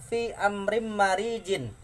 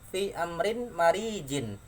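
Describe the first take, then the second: The two takes are said the same way.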